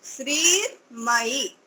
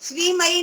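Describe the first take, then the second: First: श्रीमयी said slowly, with the र sounded in the middle; teacher giving the correct श्रीमयी; correct slow pronunciation. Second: श्रीमयी said quickly with the र dropped, like sʋiməi; teacher showing the wrong way to say श्रीमयी; wrong pronunciation. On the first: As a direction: model the right श्रीमयी slowly. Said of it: "र का उच्चारण बीच में आना चाहिए". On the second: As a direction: show the mistake in श्रीमयी with no र. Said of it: "ऐसा नहीं श्रीमयी". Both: Shown as a demonstration.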